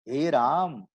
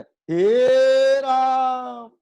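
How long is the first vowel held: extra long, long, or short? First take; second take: long; extra long. First: The first vowel is held long. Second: The first vowel is held extra long. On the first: "ये हो गया दीर्घ" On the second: "ये हो गया प्लुत"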